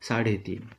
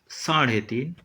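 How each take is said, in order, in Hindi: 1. 'ढ' ध्वनि सीधे मुँह से निकलती है। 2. 'ढ' ध्वनि थोड़ी नासिक्य है। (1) "मराठी में उसका उच्चारण सीधा सीधा मुंह से ही होगा" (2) "हिंदी में कुछ अधिक मात्रा में नाक से होगा"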